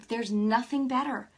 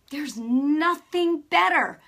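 First: Said in the usual way. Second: "nothing better" louder, higher and drawn out; emphatic repeat. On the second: Real, not acted. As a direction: hammer home "nothing better", slowly and loudly.

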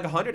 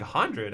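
First: Higher, rising question; lightly voiced mom, lifting the pitch to ask; retold casual question. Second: Falling echo at usual pitch; understated disbelief, imitating your own reply; retold doubtful echo. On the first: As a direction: float the question up, imitating mom. Retells mother naming the sum. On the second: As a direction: repeat it back with a mild drop in tone. Retells own doubtful echo of sum.

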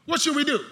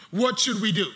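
First: Pitched up, louder second ask; rising urgency from the pulpit; emphatic repeat. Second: Said in the usual way. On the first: Acted. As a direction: drive the question at the congregation. Preacher repeats the question louder.

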